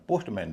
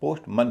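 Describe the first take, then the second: First: पोस्टमैन with an open मैन; full "man" vowel. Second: पोस्टमन with मन as a short schwa; reduced "mun" ending. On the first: Teacher rejecting the common mistake, पोस्टमैन with full मैन vowel. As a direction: say मैन fully, as in the word man. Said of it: "इसका उच्चारण पोस्टमैन नहीं होता". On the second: Teacher giving the correct form, पोस्टमन with reduced मन. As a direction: shorten the ending to मन, not मैन. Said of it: "मैन न होके मन हो जाता है". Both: Shown as a demonstration.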